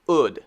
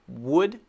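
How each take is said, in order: First: The word begins directly with the vowel sound. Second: The word begins with a lip-rounded w sound. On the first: The speaker calls it wrong. "the second one is wrong" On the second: The speaker calls it right. "the first one is right"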